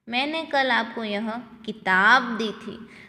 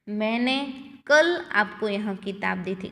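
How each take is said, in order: First: The stress is on किताब. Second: The stress is on कल.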